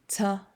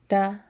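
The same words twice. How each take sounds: First: The t is released with a hissing s sound. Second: The t is crisp with no hissing sound. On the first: The speaker calls it wrong. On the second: The speaker calls it right.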